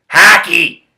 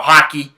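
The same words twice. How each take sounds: First: "Hockey" with a flattened first vowel, like "hacky"; comic pronunciation. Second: Said in the usual way. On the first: Pretend. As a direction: exclaim "Hockey" as "HACK-ee". Word repeated in comic pronunciation.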